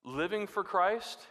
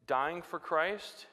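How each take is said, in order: First: Slow, Christ rising; stress on Living. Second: Slow, Christ rising; stress on Christ. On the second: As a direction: stretch "dying for Christ". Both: Shown as a demonstration. Sermon contrast dying vs living.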